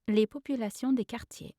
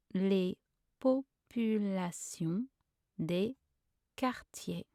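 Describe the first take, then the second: First: Said in the usual way. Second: Slow, word by word with pauses; syllable by syllable. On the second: Shown as a demonstration. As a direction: separate every syllable for a learner. Pronunciation guide, broken-down take.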